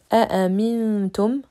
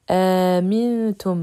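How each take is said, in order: First: Two separate glottal stops open the word. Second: One glottal stop with a lengthened vowel. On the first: "pour Hafs" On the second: "pour Warsh"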